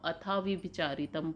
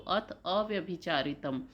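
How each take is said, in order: First: The words are run together into one word. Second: The words are said as two separate words. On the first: The speaker calls it wrong. "जहाँ आप अथाविभिचारितम पढ़ लेते हैं" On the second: The speaker calls it right. "इसको जब भी आप पढ़ें तो अथ अव्यभिचारितम"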